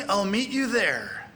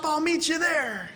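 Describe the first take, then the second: First: Said in the usual way. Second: High, drawn-out eager reply; mock excitement. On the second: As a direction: act out agreeing to the plan, slow and high. Acts out the eager code reply.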